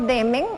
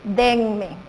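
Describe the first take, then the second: First: There is no n sound before the m. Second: An n sound comes right before the m. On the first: The speaker calls it wrong. "tampoco demen" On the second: The speaker calls it right. "lo correcto es decir denme"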